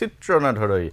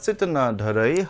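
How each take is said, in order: First: The first word is said with a 'tr' sound. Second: The first word is said with a doubled 'tt' sound. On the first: The speaker calls it wrong. "মই এটা ভুল উচ্চাৰণ কৰিছিলোঁ" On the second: The speaker calls it right. "প্ৰকৃত উচ্চাৰণটো হৈছে"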